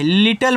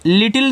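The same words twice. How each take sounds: First: लिटल with a neutral vowel before the final l; correct pronunciation. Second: लिटिल with a short i in the last syllable; wrong pronunciation. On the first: Teacher shows students how to read it, लिटल ending in "-tal". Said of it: "लिटल पढ़ना है". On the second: Teacher shows students the reading to avoid, लिटिल ending in "-til". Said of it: "ऐसे लिटिल नहीं पढ़ना है". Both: Shown as a demonstration.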